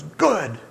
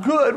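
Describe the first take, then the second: First: Short, louder, unsympathetic verdict; blunt counselor. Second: High, loud mock disbelief; incredulous crying man. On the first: Retold or imitated. Pastor answering the crying man, blunt. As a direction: drop it bluntly, with a falling tone. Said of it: "And Romaine goes". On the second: Counseled man imitated questioning the pastor, incredulous. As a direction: throw the word back, high and upset. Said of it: "And he goes".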